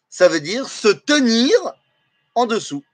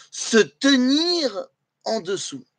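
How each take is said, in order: First: Said in the usual way. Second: Se tenir en dessous said slowly, each word weighted; slow emphatic repeat. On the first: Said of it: "explains literal meaning". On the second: Shown as a demonstration. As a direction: lean on se tenir en dessous as the key lesson. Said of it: "littéralement".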